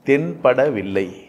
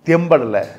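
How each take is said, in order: First: The word is said in its full long form. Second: The word is said in a shortened, blended form. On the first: "தென்படவில்லை ஒரு வார்த்தை இருக்குது" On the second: "அப்படி மாறிச்சு"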